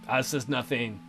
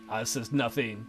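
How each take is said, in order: Both takes have the same delivery.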